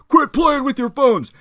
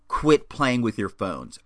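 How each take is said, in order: First: It is said loudly, close to a yell. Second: It is muttered quietly under the breath. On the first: The annoyance burst out for everyone to hear. "it came out pretty loud" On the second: It was meant only for oneself. "I went to mutter to myself"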